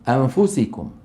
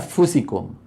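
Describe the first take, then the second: First: A nasal hum is held before the f. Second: The n disappears into a doubled f sound. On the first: The speaker calls it right. "لكنهم قالوا أنفسكم" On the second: The speaker calls it wrong. "لو قالوا أفسكم شو كان هذا اسمه؟ إدغام"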